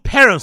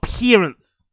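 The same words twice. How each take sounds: First: The first syllable sounds like the word pair. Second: The first syllable does not sound like pair. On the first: The speaker calls it right. "It's called parents, like a pair" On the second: The speaker calls it wrong. "not parents"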